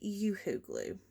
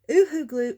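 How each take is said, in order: First: The name begins with a y sound. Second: The name begins with a plain oo vowel. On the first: The speaker calls it right. "is actually Yoo-hoo glue" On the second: The speaker calls it wrong. "we've all been saying it incorrectly"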